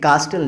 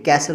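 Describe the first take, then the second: First: The t sound is pronounced in the middle. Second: The t sound is silent in the middle. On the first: The speaker calls it wrong. "ये कास्टल नहीं है" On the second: The speaker calls it right. "ये कैसल होता है"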